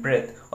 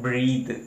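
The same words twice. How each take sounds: First: ब्रेथ said with a short e, bret; teacher models ब्रेथ with a short e vowel for students; pronunciation demo. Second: ब्रीथ said with a long ee, breeth; teacher stretches the ee in ब्रीथ; pronunciation demo. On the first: Teacher models ब्रेथ with short e for the class. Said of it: "इसको पढ़ते हैं ब्रेथ". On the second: Teacher contrasts ब्रीथ with long ee for students. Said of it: "इसको क्या पढ़ा जाता है". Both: Shown as a demonstration.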